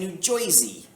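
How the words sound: It is said in a strong Long Island accent. The speaker calls it wrong.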